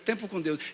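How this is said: It is said gently and lovingly. It imitates another preacher's loving style. "no jeito de amor que ele prega"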